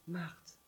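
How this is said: The name is said in a gentle, loving tone. A God of love and kindness. "le deuxième Marthe, c'est le Dieu du Nouveau Testament, c'est le Dieu de l'amour, de la bienveillance"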